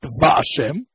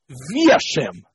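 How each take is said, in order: First: Va Hashem with an a after the V; Va with patach. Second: Vi Hashem with an i after the V; Vi with chirik. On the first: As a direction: open Va Hashem on "va". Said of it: "not Va Hashem". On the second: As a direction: say "Vi" in slow Vi Hashem. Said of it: "the Yud would be Bishva". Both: Shown as a demonstration.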